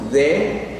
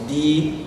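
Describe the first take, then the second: First: The vowel of 'the' is a short 'uh'. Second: The vowel of 'the' is a long 'ee'. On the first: The next word starts with a consonant. "el artículo lo pronunciamos como de" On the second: The next word starts with a vowel. "se pronuncia como the cuando la palabra que le sigue inicia con vocal"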